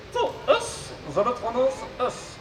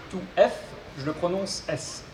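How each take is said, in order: First: High robot voice with garbled consonants. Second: Said in the usual way. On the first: Acted. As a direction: mangle the consonants like a glitchy robot. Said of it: "souffre d'une pathologie vocale". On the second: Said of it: "je serai son interprète".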